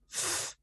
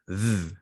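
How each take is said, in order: First: The th sound is voiceless, without vibration. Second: The th sound is voiced, with vibration. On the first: "the voiceless"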